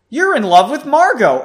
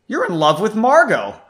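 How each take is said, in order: First: It is said loudly, almost yelled. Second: It is said at a normal speaking volume.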